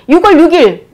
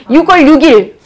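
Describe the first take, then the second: No difference in how they are said.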